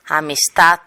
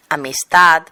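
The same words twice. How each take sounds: First: Amistad ending in a hard T, "amistat"; Catalan-style amistad with a crisp final T. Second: Amistad with a soft voiced D at the end; final D kept soft. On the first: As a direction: harden the last sound of amistad to a voiceless t. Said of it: "articula como sorda". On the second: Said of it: "en lugar de decir". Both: Shown as a demonstration.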